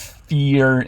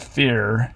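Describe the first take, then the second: First: The vowel sounds like a tense 'ee'. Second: The vowel sounds like a lax 'ih'. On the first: "a distinction between E and I" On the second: "a distinction between E and I"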